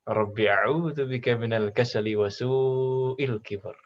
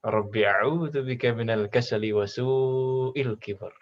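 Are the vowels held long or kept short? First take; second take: long; long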